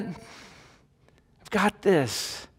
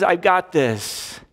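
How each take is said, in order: First: God's calm promise, stretched and softer; slow, soft assurance. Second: Calm assurance. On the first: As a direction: let each word settle, very slowly and softly. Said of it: "Does it give you peace yet?". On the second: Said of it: "and he says". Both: Shown as a demonstration.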